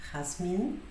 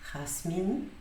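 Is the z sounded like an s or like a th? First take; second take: s; s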